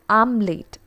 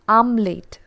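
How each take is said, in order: Both takes have the same delivery.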